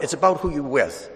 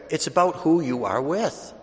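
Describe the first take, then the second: First: Said in the usual way. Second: "are" opened out and leaned on; stress on ARE. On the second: Real, not acted. Preacher driving the point home to the congregation, stressing ARE. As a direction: restate it deliberately, landing on ARE.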